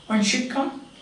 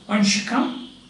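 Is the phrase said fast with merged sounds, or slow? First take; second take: fast; fast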